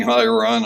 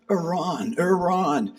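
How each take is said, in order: First: Said in the usual way. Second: Higher, drawn-out call of Iran; mild imitation of a man calling Iran. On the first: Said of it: "He wasn't saying". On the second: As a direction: mimic a man calling Iran across a camp. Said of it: "he goes".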